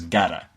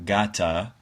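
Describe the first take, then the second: First: The T is said as a flap. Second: The T is said as a clear T. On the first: The speaker calls it right. "replaces it with a flap and then mashes the two words together" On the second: The speaker calls it wrong. "the way that you might expect"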